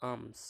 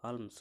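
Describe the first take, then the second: First: "আর্মস" as "aams", no L; silent L. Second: "আর্মস" as spelt, with the L sounded: "alms"; L pronounced. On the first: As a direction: say "আর্মস" going straight from long A to M. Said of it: "এতটুকু উচ্চারণ হচ্ছে". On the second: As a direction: say "আর্মস" with an audible L before the M. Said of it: "তো আর্মস হতো". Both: Shown as a demonstration.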